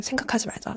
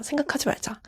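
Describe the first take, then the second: First: Quiet chanted self-reminder; first soft take of a repeated mantra; muttered like a spell. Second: Quiet mantra repeat, pitched higher; second soft take of the mantra, higher; repeated like a spell. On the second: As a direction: say it again softly, pitch rising, like a charm. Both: Retold or imitated. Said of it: "주문처럼 외웠거든요".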